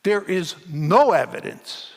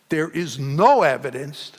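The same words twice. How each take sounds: First: Said in the usual way. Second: No said a little louder with a rising hit; stress on no. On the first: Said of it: "I want to underline that word". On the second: Shown as a demonstration. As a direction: lean hard on the word no. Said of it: "I want to underline that word, no".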